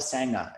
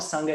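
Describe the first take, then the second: First: It is said with an Australian pronunciation. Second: It is said with the Pali pronunciation. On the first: The speaker calls it wrong. "so many Aussies refer to the practice community as a sanga" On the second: The speaker calls it right. "while the sangha is nourishing"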